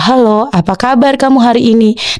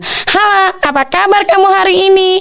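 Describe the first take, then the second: First: It is said in an ordinary speaking voice. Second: It is said in a small, high voice. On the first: "suara biasa kita" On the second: "Kalau suara kecil"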